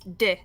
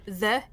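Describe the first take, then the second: First: The word begins with a d sound. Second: The word begins with a th sound. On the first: "if you're on the north side of Dublin, uh, it's D" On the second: "instead of saying the"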